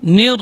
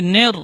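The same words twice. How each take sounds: First: "Nir" with a pure i vowel; "Nir", the vowel kept as i, never e; clear kasrah. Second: "nir" sounded as "ner", e vowel; "nir" with an open e instead of i; imalah mistake. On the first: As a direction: say "Nir" with a true, close i. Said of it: "itu bunyinya i". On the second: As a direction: demonstrate the slip "ner" for "nir". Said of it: "itu bunyinya jadi nir". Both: Shown as a demonstration.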